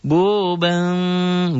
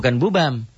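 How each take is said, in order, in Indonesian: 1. Bunyi M-nya samar dan sengau. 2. Bunyi M-nya jelas dan tertutup rapat. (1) "Bu M, bunyi M, tapi ada samar" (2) "Kita diajar di kampung dulu bunyi M doang"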